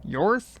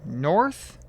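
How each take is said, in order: First: "Yorth" starting on a Y sound, no N; N left silent. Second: "North" with the initial N sounded; tentative pronunciation. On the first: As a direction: try "Yorth" higher, questioning, with no N. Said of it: "you probably don't pronounce the N". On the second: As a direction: try "North", starting on a clear N. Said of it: "I'm not sure pronunciation". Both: Shown as a demonstration.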